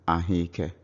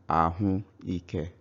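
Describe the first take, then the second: First: The vowels merge into one run-together word. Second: The two words are spoken separately and slowly. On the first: "when you speak naturally, it sounds ahike" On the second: "when I speak slowly, I will call it ahu ike"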